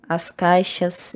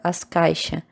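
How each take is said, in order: First: The final S sound is pronounced. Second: The final S sound is dropped.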